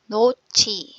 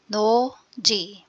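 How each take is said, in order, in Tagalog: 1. Aspiradong ch na tunog ang ikalawang katinig. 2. Payak na j na tunog ang ikalawang katinig.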